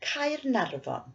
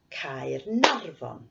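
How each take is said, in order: First: Said in the usual way. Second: Caernarfon slow, with the middle syllable nar clearly leaned on; slow it down and punch nar in Caernarfon, like clapping on it; Caernarfon, beat on nar; stress on nar. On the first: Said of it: "I'll say the place name". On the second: Shown as a demonstration. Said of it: "we'll clap on the stress".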